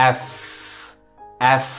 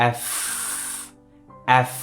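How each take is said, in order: The two takes are said the same way.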